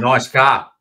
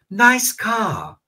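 First: It is said in a New Zealand accent, R dropped. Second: It is said in a British accent, R dropped. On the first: "Y Kiwi dice" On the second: "Peppa Pig dice"

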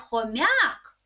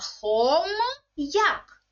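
First: The consonant before the apostrophe is soft. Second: The consonant before the apostrophe is hard. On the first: The speaker calls it wrong. "Не хом'як" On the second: The speaker calls it right. "завжди читається твердо"

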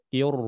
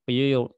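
No difference in how they are said.

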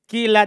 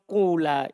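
First: The first vowel is a plain i sound. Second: The first vowel is a long u sound. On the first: The speaker calls it right. "di kasro ini paling kuat" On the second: The speaker calls it wrong. "dhamma bersama waw"

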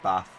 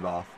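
First: The vowel is a short 'a' sound. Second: The vowel is long, sounding like 'ar'. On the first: The speaker calls it right. "It's bath" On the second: The speaker calls it wrong. "There's no R in bath, so you wouldn't say bath"

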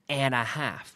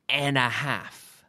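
First: The words are run together smoothly. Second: The same.

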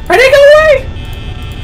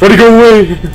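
First: It is said in his normal voice. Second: It is said in a put-on manly voice.

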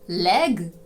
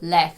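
First: The final consonant is voiced. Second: The final consonant is voiceless. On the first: The speaker calls it right. "замість leg" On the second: The speaker calls it wrong. "Не оглушуйте дзвінки приголосні в кінці слів"

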